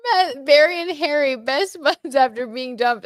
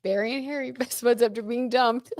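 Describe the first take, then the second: First: Higher and louder, chuckling, slow on the second half; amused. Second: Laughing. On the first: Host reading the Barry and Harry joke to viewers, loud and amused. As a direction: hold back a laugh while reading it out. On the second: Host rereading the joke to viewers, giggling through it. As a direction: read it again as the giggle takes over. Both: Real, not acted.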